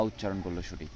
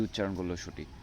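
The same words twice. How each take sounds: The two takes are said the same way.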